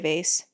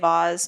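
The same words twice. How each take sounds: First: The word is said with an American pronunciation. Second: The word is said with a Canadian pronunciation. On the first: "Americans say vase" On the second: "Canadians say vase"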